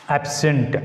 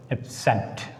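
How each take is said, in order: First: ABsent, stressed on the first syllable; noun stress on first syllable. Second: AbSENT, stressed on the second syllable; verb stress on second syllable. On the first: Teacher demonstrating the noun to students, stress on first syllable. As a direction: punch the AB in Absent. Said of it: "put the stress on primary syllable". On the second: Teacher demonstrating the verb for contrast, stress on second syllable. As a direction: lean on SENT in Absent. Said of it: "a verb takes on the second syllable". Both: Shown as a demonstration.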